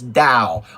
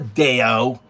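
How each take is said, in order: First: The word is said as one syllable. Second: The word is said with two syllables. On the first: The speaker calls it right. "It's Dow" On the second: The speaker calls it wrong. "It's not a Deo"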